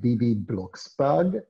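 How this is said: The name is said with a German accent. "with my German accent"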